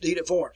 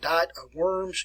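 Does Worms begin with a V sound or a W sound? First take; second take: V sound; W sound. First: Worms begins with a V sound. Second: Worms begins with an English W sound. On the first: It is said the German way. The speaker calls it right. "W's are pronounced as V. So it is Worms" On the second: It is read as the spelling looks in English. The speaker calls it wrong. "as you look at it, ... and that is not the way it is"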